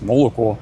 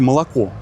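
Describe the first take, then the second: First: Every vowel is pronounced as a full o. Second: The unstressed vowels are reduced toward a. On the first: It is said exactly as it is written. "как ты написал, так ты произнес" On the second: This is how Russians normally say it. "произносите"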